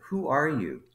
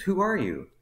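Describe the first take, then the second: First: Raised pitch, retold puzzlement; high start, falling at the end; baffled question. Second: Much higher-pitched, insistent question; high-pitched demand, falling at the end; insistent bafflement. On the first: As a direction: imitate a boss puzzled by who this is. Manager reads card, baffled. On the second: Retold or imitated. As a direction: imitate a boss pressing in disbelief. Manager insists on asking again.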